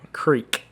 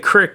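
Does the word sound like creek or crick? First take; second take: creek; crick. First: The vowel is long, like creek. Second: The vowel is short, like crick. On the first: This is how the speaker's own region says it. The speaker calls it right. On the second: This is how people say it in other regions. The speaker calls it wrong.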